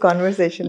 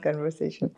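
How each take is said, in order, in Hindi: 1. पहले अक्षर में खुला 'o' स्वर है। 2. पहले अक्षर में छोटा 'uh' स्वर है। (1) "the word is कॉन्वर्सेशन" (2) "not कन्वर्सेशन"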